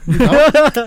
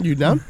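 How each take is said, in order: First: Called out louder and higher. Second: Said in the usual way. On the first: Real, not acted. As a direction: shout the question across.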